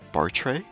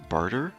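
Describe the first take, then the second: First: The name ends with a 'ray' sound. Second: The name ends with an 'er' sound. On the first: The speaker calls it right. "we're just gonna say Bartray" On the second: The speaker calls it wrong. "I don't want to call him Barter because that just sounds dumb"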